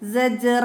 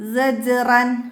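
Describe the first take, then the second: First: The word ends with a vowel, no n. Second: The word ends with an n sound. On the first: The reader stops on this word. "നമ്മൾ ഒരു വേർഡ്സ് ആക്കി നിർത്തുമ്പോൾ സജ്റ" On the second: The word is read in continuous recitation. "ഇവിടെ വത്ത തൻവീനാണ്"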